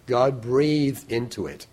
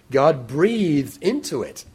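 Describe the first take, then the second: First: Said in the usual way. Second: "God breathed into it" said slowly, raised and louder, each word weighed; slow emphatic. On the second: Shown as a demonstration. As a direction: linger on "into", let it land slowly. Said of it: "God breathed into it so that".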